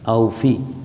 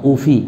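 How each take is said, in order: First: The word begins with an 'au' diphthong. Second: The word begins with a plain 'u' vowel. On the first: The speaker calls it right. "yang betul di situ aufi" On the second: The speaker calls it wrong. "bukan ufi"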